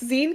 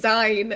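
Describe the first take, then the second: First: It rhymes with the end of 'magazine'. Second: It does not rhyme with 'magazine'. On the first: The speaker calls it right. "No, it's Zine 'cause it's magazine" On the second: The speaker calls it wrong. "everyone keeps saying Zine"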